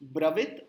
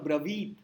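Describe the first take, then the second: First: The vowel in 'vi' is short. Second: The vowel in 'vi' is long. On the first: The speaker calls it wrong. "गलती से कर दिया ब्रवित" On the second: The speaker calls it right. "वी दीर्घ है"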